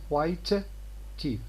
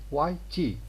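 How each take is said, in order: First: The first t is released before teeth. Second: The first t is held without release. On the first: The speaker calls it wrong. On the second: The speaker calls it right. "So this t first one is unreleased"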